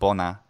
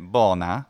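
First: Both syllables have short vowels. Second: The first syllable has a lengthened vowel. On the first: The speaker calls it right. "the disyllabic word bona is two short syllables" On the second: The speaker calls it wrong. "which many Italian Latin speakers do, is wrong and is not Latin"

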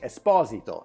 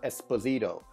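First: The name is said with Italian pronunciation. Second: The name is said with American pronunciation. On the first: This is how the name is said in Italy. The speaker calls it right. "It should be Esposito" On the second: This is how people in the States say it. The speaker calls it wrong. "not Esposito"

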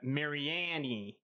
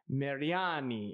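First: The name is said with English-style pronunciation. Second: The name is said with Italian pronunciation. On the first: This is the family's anglicized form of the name. The speaker calls it wrong. "we got way more English accent, and we just decided Mariani" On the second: This is the authentic Italian form of the name. The speaker calls it right. "is how you're supposed to say it"

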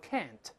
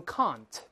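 First: It is said in an American accent. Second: It is said in a British accent. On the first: "美国人都是can't" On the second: "英国人都是can't"

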